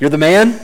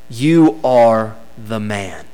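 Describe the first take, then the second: First: It is said as casual admiring praise. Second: It is said as a stern accusation. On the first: The listener is being praised. "the way we use those words sometimes" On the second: The listener is the guilty one in the story. "That wasn't a compliment"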